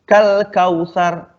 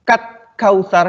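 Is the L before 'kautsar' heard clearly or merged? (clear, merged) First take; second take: clear; merged. First: The L is pronounced clearly before the K. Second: The L is dropped, merging into a doubled K. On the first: The speaker calls it right. "alnya kan dibaca" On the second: The speaker calls it wrong. "Tidak boleh kat kautsar, nggak boleh, kan tidak ada tasdidnya"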